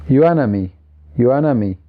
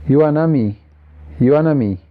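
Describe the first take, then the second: The two takes are said the same way.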